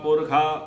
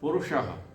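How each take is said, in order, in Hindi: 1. अंतिम व्यंजन kh की ध्वनि है। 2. अंतिम व्यंजन sh की ध्वनि है। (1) "भाई कोई पुरखे नहीं है वहां पर"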